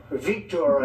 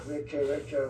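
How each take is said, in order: First: "Victor" said Vik-tor-a, with an open foreign ending; little accent. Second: Said in the usual way. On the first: Shown as a demonstration. Naming his friend with a little foreign accent, playful. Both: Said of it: "I put the little, the little accent on it".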